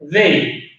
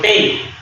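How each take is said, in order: First: It begins with a d-like sound. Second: It begins with a t-like sound. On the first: The speaker calls it right. "se pronuncia con la D de dedo" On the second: The speaker calls it wrong. "no se pronuncia con la T"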